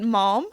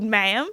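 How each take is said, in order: First: It is said with a British accent. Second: It is said with an American accent. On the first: "which I'll say in a British accent" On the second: "I'm gonna have to do it in an American accent"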